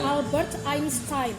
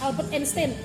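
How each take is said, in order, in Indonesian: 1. Einstein diawali dengan diftong 'eye'. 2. Einstein diawali dengan satu vokal tunggal biasa. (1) "Albert Einstein gitu" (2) "bukan Albert Einstein"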